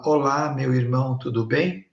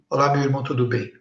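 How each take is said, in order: First: The words come out one at a time. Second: The words are run together at once.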